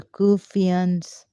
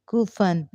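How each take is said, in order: First: Said in the usual way. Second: Kufan with a short u, stress on the first syllable, falling; Kufan the Urdu way. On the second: Shown as a demonstration. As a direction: say Kufan as in Urdu, not Kufians. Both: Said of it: "Urdu way".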